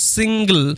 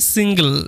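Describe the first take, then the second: Both takes have the same delivery.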